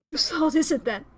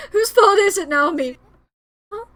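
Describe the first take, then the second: First: Said in the usual way. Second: Sobbing, shouted accusation; crying outburst. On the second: Acted. Grieving boy demands of Naomi whose fault it is, crying shout. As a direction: hurl the question at her through tears.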